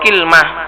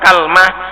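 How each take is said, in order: First: It opens with an i vowel, no middle vowel. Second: It opens with an a vowel, no middle vowel. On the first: "bi kasril kafi wa sukunil lam" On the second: "dengan memfathah kaf dan lamnya disukun"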